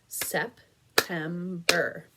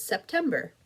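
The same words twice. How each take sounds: First: September said slowly, one beat per syllable, Sep-tem-ber; clapped syllables. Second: Said in the usual way. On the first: Shown as a demonstration. Teacher claps out September for young students, slow and separated. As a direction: break September into three even claps. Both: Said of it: "Clap it with me".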